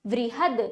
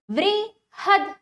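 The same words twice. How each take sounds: First: Said in the usual way. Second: वृहद split slowly as वृ... हद; slow, higher वृ, pause, then हद; broken into syllables. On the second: Shown as a demonstration. (वृहद को धीरे-धीरे तोड़कर: वृ... हद) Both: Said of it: "तोड़कर पहले".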